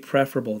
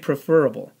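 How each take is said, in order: First: The stress is on the first syllable. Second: The stress is on the second syllable. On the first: The speaker calls it right. "it should be preferable the way you pronounce it" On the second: The speaker calls it wrong. "some people will say preferable"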